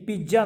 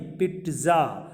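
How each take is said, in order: First: पिज़्ज़ा as "pee-ja"; पिज़्ज़ा with a J, not TS; wrong pizza. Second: पिज़्ज़ा slowly as "pit-za"; पिज़्ज़ा drawn out, with a T before the Z; correct pizza, slow. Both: Shown as a demonstration. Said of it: "पिज़्ज़ा नहीं".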